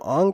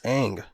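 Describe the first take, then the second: First: The vowel sounds like the 'a' in 'father'. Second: The vowel sounds like the 'a' in 'cat'. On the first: This is the name as someone chose to say it. The speaker calls it wrong. "if they called him Ong through the whole thing" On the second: This is the name as the original show says it. The speaker calls it right. "they pronounce it Aang, so therefore it's Aang"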